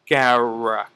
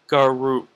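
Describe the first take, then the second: First: The second vowel is a short, weak 'uh' sound. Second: The second vowel is a full 'oo' sound. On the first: The speaker calls it right. "it's Garek" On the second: The speaker calls it wrong. "Not Garuk"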